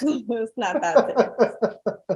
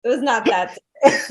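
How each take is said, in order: First: Softer, slower, laughing through it; laughing denial. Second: Said in the usual way. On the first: Real, not acted. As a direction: let the laugh take over the words. Repeats it laughing.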